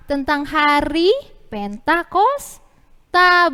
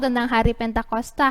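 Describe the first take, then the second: First: Slow, louder prompting answer; drawn-out answer. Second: Said in the usual way. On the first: Shown as a demonstration. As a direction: stretch it out for kids to follow. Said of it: "Ceritanya tentang apa?".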